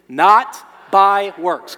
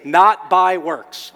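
First: Chanted, "Not by works" shouted very loud and slow. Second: Loud, slow "Not by works" with "Not" punched; stress on NOT. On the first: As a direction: lead the crowd in the chant at full voice. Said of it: "On three. One, two, three". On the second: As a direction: model the corrected phrase, leaning on "Not". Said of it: "let's say it better". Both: Shown as a demonstration.

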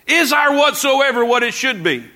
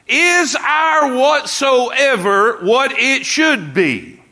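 First: Said in the usual way. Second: High, slow shouted question; preaching shout. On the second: Real, not acted.

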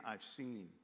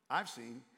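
First: Said in the usual way. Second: I've hit harder and louder; stress on I've. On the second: Shown as a demonstration. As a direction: punch the word I've, then let seen settle. Repeat contrasting God with Moses.

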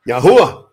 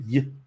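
First: Said in the usual way. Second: Yahuwah broken into soft, separate sounds, ya-hu-wa; syllable by syllable. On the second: Shown as a demonstration. Teacher showing the Hebrew letters, Yahuwah sounded out in pieces.

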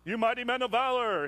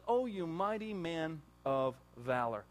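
First: A hint of a proclaiming God, louder. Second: Gentle God. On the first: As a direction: announce it like a declaration. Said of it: "God said". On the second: Retold or imitated. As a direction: call him lovingly by his worth. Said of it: "God comes to him and says".

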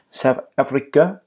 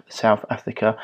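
First: South African accent attempt, pitched up with rising end; poor South African accent. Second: Said in the usual way. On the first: Host joking about his upcoming trip, poor South African accent. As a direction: try a badly faked South African accent. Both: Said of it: "Excuse my poor accent".

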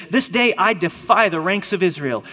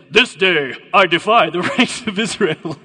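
First: Said in the usual way. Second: Loud villain challenge breaking into a laugh; Goliath's accented bellow. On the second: Acted. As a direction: boom it out in a mock accent. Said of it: "Then the Philistine said".

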